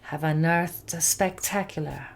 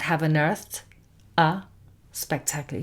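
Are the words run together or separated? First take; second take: run together; separated. First: The words are linked into one unit. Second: The words are said separately, not linked. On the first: The speaker calls it right. "That little section we're going to pronounce as a single word" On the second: The speaker calls it wrong.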